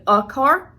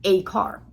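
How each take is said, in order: First: Said in the usual way. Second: "a" said in full as "ay" before "car"; strong form a. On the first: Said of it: "instead of a car". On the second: Shown as a demonstration. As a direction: hit "a" in "a car". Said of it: "I actually said the full strong form".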